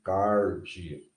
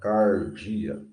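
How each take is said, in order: First: The R is said in the Goiano style. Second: The R is said in the Goiano style.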